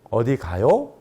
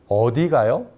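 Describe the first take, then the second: First: The pitch is raised on 가요. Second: The pitch is raised on 어디. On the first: It asks whether the person is going somewhere. "가요의 억양을 높이게 되면" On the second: It asks where the person is going. "어디를 억양을 높이면"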